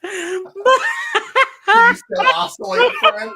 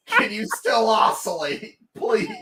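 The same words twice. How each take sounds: First: High, slow plea broken up by laughter; laughing plea. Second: Said in the usual way. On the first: Real, not acted. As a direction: beg the dead fan while cracking up. Begging his broken fan.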